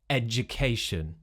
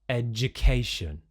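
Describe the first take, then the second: First: The middle is said with a j sound. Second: The same.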